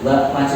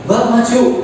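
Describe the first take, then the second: First: It is said in a calm, ordinary tone. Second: It is said in a loud, harsh tone. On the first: It sounds like a neutral request. "biasa saja" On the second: The listener at once wonders what is wrong. "itu udah langsung ada apa ini"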